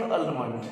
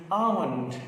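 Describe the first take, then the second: First: "almond" with the L sounded, al-mund; wrong pronunciation. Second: "almond" with a silent L, AH-mund; correct pronunciation. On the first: Teacher showing students the common mistake, "almond" with the L said. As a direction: say "almond" with a clear L. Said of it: "We say wrongly almond". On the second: Teacher correcting the class on nuts, silent-L "almond". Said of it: "It's not almond". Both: Shown as a demonstration.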